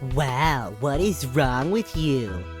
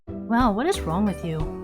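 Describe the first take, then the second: First: It is said in a mocking nasal voice. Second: It is said in a normal voice.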